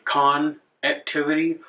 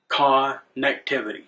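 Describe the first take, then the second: First: "con activity" with a clear break after "con"; split pronunciation. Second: "connectivity" said as one smooth word; run-together pronunciation. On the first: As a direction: say "con activity" as two separate words. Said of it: "split the word in half". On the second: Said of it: "or they would say". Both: Shown as a demonstration.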